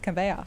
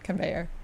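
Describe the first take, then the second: First: It is said in the speaker's own accent. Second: It is said in an American accent. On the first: "that's how I really pronounce it in my like real voice" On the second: "when I'm speaking my American accent"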